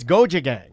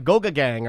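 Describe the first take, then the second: First: The middle consonant is a j sound. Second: The middle consonant is a hard g. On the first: The speaker calls it right. "It's goja gang" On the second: The speaker calls it wrong. "I used to say uh"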